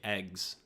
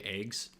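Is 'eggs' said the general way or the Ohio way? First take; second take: general; Ohio. First: It is said with the general pronunciation. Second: It is said with an Ohio pronunciation. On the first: "people everywhere else say eggs" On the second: "I, am from Ohio, so I say eggs"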